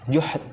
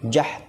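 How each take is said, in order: First: The first vowel is u. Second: The first vowel is a. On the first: "juhdi juga bisa"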